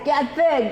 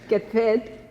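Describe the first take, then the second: First: It is said with lively energy. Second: It is said flatly, without energy.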